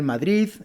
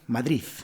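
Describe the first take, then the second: First: The word ends with a soft D sound. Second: The word ends with a th-like Z sound. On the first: "Estas en realidad deben ser Madrid" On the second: "En vez de D, utilizan la Z"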